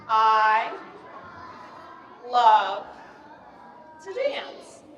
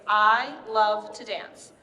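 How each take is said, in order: First: Word-by-word demo. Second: Said in the usual way. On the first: Shown as a demonstration. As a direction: lead a group to copy each word. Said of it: "can you guys copy me". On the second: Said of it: "we're gonna say the phrase".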